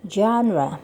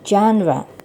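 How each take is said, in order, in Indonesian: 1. Kata itu diucapkan dengan lafal bahasa Inggris. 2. Kata itu diucapkan dengan lafal bahasa Inggris.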